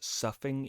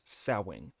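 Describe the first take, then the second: First: The first vowel sounds like 'cuff', with an f. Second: The first vowel sounds like 'cow', with no f. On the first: This is the American pronunciation. "in American English, it's pronounced suffing" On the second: This is the British pronunciation. "In British English, it's pronounced sowing"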